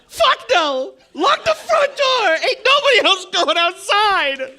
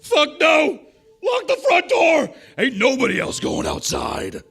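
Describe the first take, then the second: First: It is said in a fourteen-year-old boy's voice. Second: It ends in a gruff, older Cajun man's voice.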